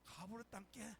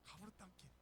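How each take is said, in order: First: 가부르 땅께 in a Jeolla dialect drawl. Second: 가부르 땅께 repeated in Jeolla dialect, softer and trailing off. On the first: Lightly imitated Jeolla dialect. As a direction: pastor mimics Jeolla folk saying it. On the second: Quieter Jeolla dialect echo. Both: Retold or imitated. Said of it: "전라도 사람들은 뭐라고 합니까".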